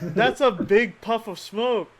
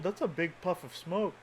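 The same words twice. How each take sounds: First: It sounds alarmed, with sudden realization. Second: It sounds calm and unbothered.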